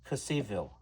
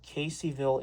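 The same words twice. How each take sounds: First: The town name is said with a different vowel sound. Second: The town name is said the usual local way. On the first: The speaker calls it wrong. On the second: The speaker calls it right.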